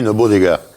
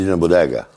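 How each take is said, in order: First: The final vowel of bodega is fully pronounced. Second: The final vowel of bodega is dropped. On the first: This is how it is said in the speaker's own region. "on dit une bodega chez nous" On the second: This is how it is said in the South-East. "Dans le Sud-Est, c'est une bodega. Ils éludent la dernière"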